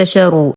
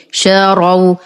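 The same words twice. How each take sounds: First: شروا as "sharu" with a "u" ending; mispronunciation demo. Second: شروا slowly as "sha-raw", heavy ra; open, emphatic ra in شروا; correct pronunciation. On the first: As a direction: wrongly round the ra in شروا. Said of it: "وليس". (شروا بضم الراء خطأً) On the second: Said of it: "بفتح الراء مع التفخيم". (شروا بفتح الراء مع التفخيم) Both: Shown as a demonstration.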